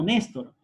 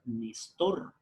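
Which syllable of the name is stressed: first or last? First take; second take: first; last. First: The stress falls on the first syllable. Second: The stress falls on the last syllable. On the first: This is how the name is actually said. "Yo me llamo" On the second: This is how the name reads without the accent mark. "Entonces tendríamos que pronunciar"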